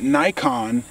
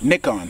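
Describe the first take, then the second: First: The name is said in a non-British way. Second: The name is said in a British way.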